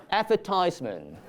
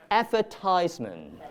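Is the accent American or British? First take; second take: American; American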